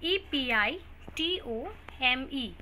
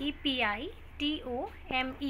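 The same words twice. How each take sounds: The two takes are said the same way.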